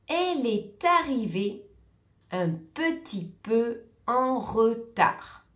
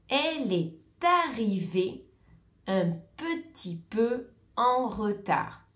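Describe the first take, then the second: Both takes have the same delivery.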